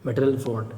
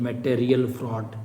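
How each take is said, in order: First: Said in the usual way. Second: "material fraud" said slowly, syllable by syllable; slow, measured repeat. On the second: Real, not acted. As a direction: stretch out "material" as a teacher repeating a term. Teacher repeats the term slowly for students. ("Material fraud" धीरे-धीरे, खींचकर)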